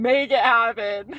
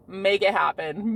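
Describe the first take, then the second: First: Said louder and slower with a laugh; louder laughing affirmation. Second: Said in the usual way. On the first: Shown as a demonstration. Urging herself on, louder and laughing. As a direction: punch it out like a mantra. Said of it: "repeated affirmation, louder". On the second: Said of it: "repeated affirmation".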